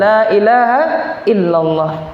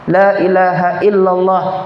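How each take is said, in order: First: It is said slowly and gently. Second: It is said quickly, in rapid repetition.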